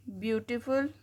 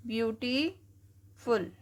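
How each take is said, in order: First: Said in the usual way. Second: beautiful stretched out slowly, each syllable apart. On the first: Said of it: "जैसे". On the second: Shown as a demonstration. Teacher breaking a word into syllables for students, slow. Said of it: "तोड़ के पढ़ते हैं हम".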